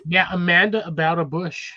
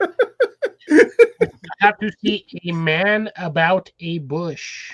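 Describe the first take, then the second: First: "Amanda about a bush" run together as one name; slurred together. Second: Every word spaced out slowly; slow, careful. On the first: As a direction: blur "Amanda" into a single word. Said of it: "it sounded the other way". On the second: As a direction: spell it out word by word. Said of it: "the way you said it". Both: Shown as a demonstration.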